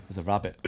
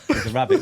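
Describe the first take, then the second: First: Said in the usual way. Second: Higher, rising excited call; a second, excited shout of rabbit; raised call. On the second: Retold or imitated. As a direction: call it out, pitching up high. Repeated call, much higher.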